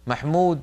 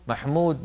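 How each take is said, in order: First: The vowel is said with fully rounded lips. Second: The same.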